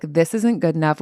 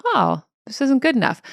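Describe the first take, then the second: First: Self-judging. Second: Higher, light discovery; neutral noticing. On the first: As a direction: say it as a verdict against yourself. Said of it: "which means I'm not good enough". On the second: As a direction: notice it with a mild, curious "oh". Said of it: "the second one in the different tone of voice". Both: Shown as a demonstration.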